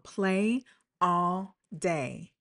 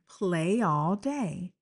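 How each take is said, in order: First: Each word is said separately, without linking. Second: The words are linked together and flow smoothly. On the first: The speaker calls it wrong. "if I didn't link it, you heard how I said every sound" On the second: The speaker calls it right. "It just flows"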